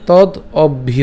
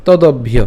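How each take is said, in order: First: "তদ অভ্য" slowly, in two separate parts; broken-up pronunciation. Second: "তদভ্য" as one unbroken word; joined pronunciation. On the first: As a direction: pause between তদ and অভ্য. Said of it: "এভাবে উচ্চারণ করতে পারি". ("তদ অভ্য" ভেঙে ধীরে উচ্চারণ) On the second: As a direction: run তদ straight into অভ্য, "তদভ্য". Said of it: "আমরা just উচ্চারণ করবো কীভাবে". ("তদভ্য" একসাথে উচ্চারণ) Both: Shown as a demonstration.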